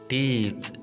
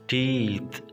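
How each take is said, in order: Both takes have the same delivery.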